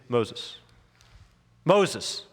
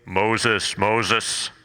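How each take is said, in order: First: The name is called softly and gently. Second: The name is called loudly and booming.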